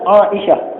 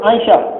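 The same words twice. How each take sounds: First: The name is said with Arabic pronunciation. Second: The name is said with Malay pronunciation. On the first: This is the original pronunciation of the name. "sebutan sebenarnya Aisyah" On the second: This is how local speakers usually say it. "kita sebut Aisyah"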